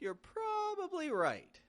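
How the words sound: Probably is stressed, its first syllable stretched and high. It stresses that the point is only possible. "Really peak your voice up"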